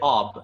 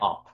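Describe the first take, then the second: First: The word ends with a b sound. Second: The word ends with a p sound. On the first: This is the modern Persian form. "in modern Persian with a b sound" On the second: This is the Baluchi form. "they still say ob with a p sound"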